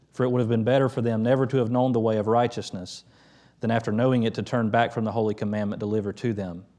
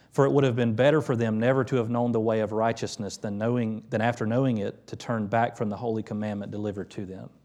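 No difference in how they are said.

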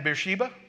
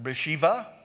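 First: The second consonant is pronounced as a b. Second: The second consonant is pronounced as a v.

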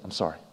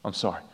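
No difference in how they are said.

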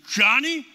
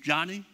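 First: It is said louder, with thunder in the voice. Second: It is said at a normal, softer volume.

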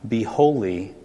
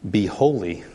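No difference in how they are said.

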